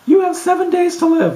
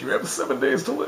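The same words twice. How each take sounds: First: It is said in a put-on child's voice. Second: It is said in the speaker's normal voice.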